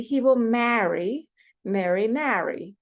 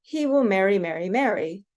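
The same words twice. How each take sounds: First: Slow, first MARRY with flat 'a' as in cat; MARRY as "ma-ree" against "meh-ree", drawn out; East Coast vowels. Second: MARRY each time identical, like "merry"; merged vowels. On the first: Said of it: "pronounce these a little bit differently". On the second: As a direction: West Coast demo, every MARRY with the same 'eh'. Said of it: "say a sentence like this". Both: Shown as a demonstration.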